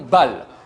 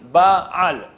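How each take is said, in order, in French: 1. Le mot n'a qu'une syllabe, sans coup de glotte. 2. Un coup de glotte sépare les deux voyelles. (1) "et non bal" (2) "bien prononcer le aïn de ba'al"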